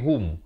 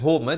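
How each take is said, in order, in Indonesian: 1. Kata ini berakhir bersih pada bunyi m. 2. Ada bunyi vokal tambahan setelah m terakhir. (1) "tapi hum" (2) "bukan hum eh"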